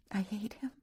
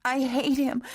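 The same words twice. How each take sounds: First: Higher, much softer, bitter I hate him; quiet hatred. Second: High, louder cry of "I hate him"; sobbing outburst. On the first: Catherine's quiet bitter take. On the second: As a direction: burst out with "hate". Catherine's loud bitter take. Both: A narrator's reading.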